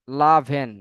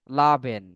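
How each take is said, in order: Both takes have the same delivery.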